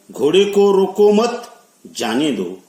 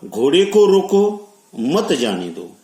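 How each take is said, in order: First: High, loud "घोड़े को रोको मत", stop, then "जाने दो"; pause after मत. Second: "घोड़े को रोको" in one breath, stop, then "मत जाने दो"; pause before मत. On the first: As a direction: run "रोको मत" together and break before "जाने दो". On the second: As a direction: break right after "रोको", keeping "मत" with "जाने दो". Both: Shown as a demonstration. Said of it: "ये दो वाक्य अगर देखे".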